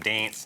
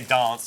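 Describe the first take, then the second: First: It is said in the speaker's plain accent. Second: It is said in an Adelaide accent. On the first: "instead of dance" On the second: "they say dance instead of"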